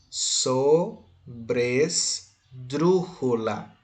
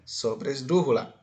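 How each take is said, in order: First: "Sobresdrújula" drawn out very slowly, syllable by syllable. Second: Said in the usual way. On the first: Shown as a demonstration. Teacher introducing the term sobresdrújula to students, syllable by syllable. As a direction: break "Sobresdrújula" into separate syllables with clear pauses.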